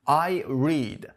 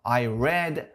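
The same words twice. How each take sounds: First: The word read has its present-tense pronunciation. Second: The word read has its past-tense pronunciation. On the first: The action happens now or habitually. "من میخونم" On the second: The action happened in the past. "من خوندم"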